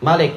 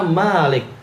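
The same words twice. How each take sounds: First: The vowel after the m is short. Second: The vowel after the m is long. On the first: It means king. "mimnya dipendekkan, tidak mat" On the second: It means the one who owns and rules. "Malik yaitu dimatkan"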